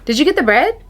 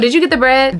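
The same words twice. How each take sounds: First: The question sounds friendly and neutral. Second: The question sounds nasty and suspicious. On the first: The asker simply wants to know about the bread. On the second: The asker doubts the bread was really bought.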